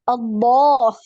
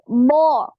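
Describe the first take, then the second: First: An extra e sound comes before the syllable. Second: The syllable starts directly, with no extra vowel. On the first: The speaker calls it wrong. "hilangkan e, jangan ada e" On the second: The speaker calls it right. "Jadi bo, gitu ya"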